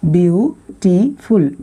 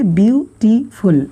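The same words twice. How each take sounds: First: "beautiful" very slowly as view, टी, फुल; slower, split syllables. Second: "beautiful" slowly in three beats; split syllables. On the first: Teacher asking students to say it slower, "beautiful" drawn out by syllable. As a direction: stretch each of the three beats in "beautiful". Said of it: "थोड़ा धीरे बोल के देखिएगा". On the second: Teacher introducing three syllables, "beautiful" slowly split. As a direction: space out view, टी, फुल in "beautiful". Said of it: "थोड़ा धीरे बोलिए". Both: Shown as a demonstration.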